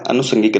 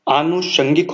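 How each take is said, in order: First: अनुषंगिक with short अ at the start; अनुषंगिक, short first vowel, as the wrong form. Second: आनुषंगिक with long आ at the start; आनुषंगिक, long first vowel, as the right form; correct form. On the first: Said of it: "अनुषंगिक नहीं होता". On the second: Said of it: "आनुषंगिक होता है". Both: Shown as a demonstration.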